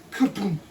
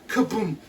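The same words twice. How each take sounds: The two takes are said the same way.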